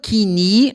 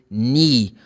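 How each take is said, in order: First: A K sound is heard before the vowel. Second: The word starts with an N sound. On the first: The speaker calls it wrong. "You don't pronounce the letter K. It's not kini" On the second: The speaker calls it right. "the letter K is silent in this word. So you say knee"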